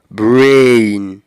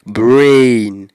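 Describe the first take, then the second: First: The vowel is a long gliding diphthong. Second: The vowel is a long gliding diphthong.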